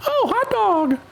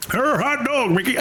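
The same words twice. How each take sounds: First: Very high, squeaky cartoon mouse exclaiming; Mickey Mouse impression. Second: A clumsy try at a classic film actor; Jimmy Stewart impression. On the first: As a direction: chirp it like a cheerful cartoon mouse. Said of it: "Mickey always would say hot dog". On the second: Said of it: "I can't do Jimmy Stewart".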